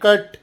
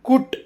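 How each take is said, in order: First: The vowel is an open unrounded sound. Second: The vowel is a rounded u sound. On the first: The speaker calls it right. "C U T ಅಂದರೆ ಕಟ್" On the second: The speaker calls it wrong. "ಕುಟ್ ಅಥವಾ ಪಟ್ ಅಲ್ಲ"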